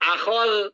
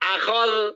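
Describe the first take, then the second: Both takes have the same delivery.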